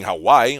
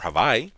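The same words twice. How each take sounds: First: It is said with the usual English pronunciation. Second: It is said with the native Hawaiian pronunciation.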